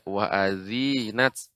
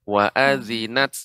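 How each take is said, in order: First: The middle vowel is drawn out long. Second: The middle vowel is kept short. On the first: The speaker calls it wrong. "dibaca dengan panjang tadi" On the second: The speaker calls it right. "seharusnya pendek"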